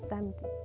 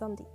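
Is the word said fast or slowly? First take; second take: slowly; fast. First: The word is said slowly and carefully. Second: The word is said quickly and clipped.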